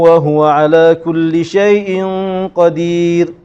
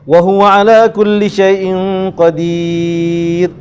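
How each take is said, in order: First: The vowel in the last word is held briefly. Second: The vowel in the last word is held moderately long. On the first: "Dua harakat" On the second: "Kalau kita baca panjang, Empat harakat"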